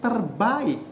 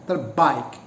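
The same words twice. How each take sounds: First: The 'a' and 'i' are two separate vowels. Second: The 'a' and 'i' glide together as one diphthong. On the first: The speaker calls it right. "the pronunciation should be ... It should be a sequence of two vowels" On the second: The speaker calls it wrong. "not as a sequence of two vowels, but as a diphthong"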